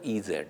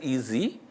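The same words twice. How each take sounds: First: The second letter is said as zed. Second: The second letter is said as zee. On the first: The name does not suggest the product is easy. "an Indian or in European who pronounces alphabet Z as Z" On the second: The name suggests the product is easy. "in the American system, Z is pronounced as Z"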